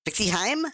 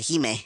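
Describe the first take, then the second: First: The name's vowel sounds like the word 'hi'. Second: The name is said in a Japanese-sounding way. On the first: "it's pronounced like hi?" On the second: "it sounded uh, Japanese, so that's why I pronounce it"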